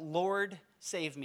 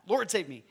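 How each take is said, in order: First: The phrase is said at a slow pace. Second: The phrase is said at a fast pace. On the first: The speaker calls it wrong. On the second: The speaker calls it right.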